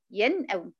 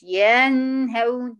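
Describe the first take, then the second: First: "ينأون" said with the vowel kept short; correct short vowel. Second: "ينهون" slow, the vowel before the noon stretched; wrong demo: slow "ينهون" with a stretched vowel; overlong vowel. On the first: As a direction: clip the vowel of "ينأون" to its length. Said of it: "بس". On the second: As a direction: stretch the "ي" of "ينهون" too long. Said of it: "ما تقوليش ينهون". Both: Shown as a demonstration.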